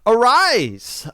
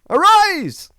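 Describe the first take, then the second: First: The word is said in a plain, even voice. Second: The word is said loudly with strong emphasis.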